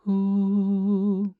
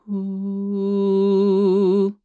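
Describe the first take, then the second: First: The sound is airy and less focused. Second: The sound is compact and more focused. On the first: "Less is less focused, which is this" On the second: "more focused"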